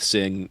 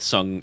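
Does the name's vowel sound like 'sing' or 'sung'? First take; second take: sing; sung. First: The name is said with an 'i' vowel. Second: The name is said with a 'u' vowel. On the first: The speaker calls it wrong. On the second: The speaker calls it right.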